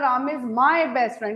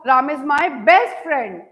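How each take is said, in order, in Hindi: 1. my शब्द पर मुख्य स्ट्रेस है। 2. best शब्द पर मुख्य स्ट्रेस है। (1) "इसका मतलब he is only माई not yours" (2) "इसका मतलब is not माई ordinary friend, he is माई best friend"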